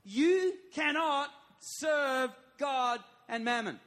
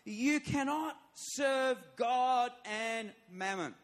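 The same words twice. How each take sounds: First: Slower and louder, pitch up; preacher's emphatic repeat. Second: Slow, loud, every word weighed; emphatic. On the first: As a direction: drive each word of "You cannot serve God and mammon" home. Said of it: "this one is very emphatic". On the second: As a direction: press each word of "You cannot serve God and mammon" slowly. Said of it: "It's very emphatic". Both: Shown as a demonstration.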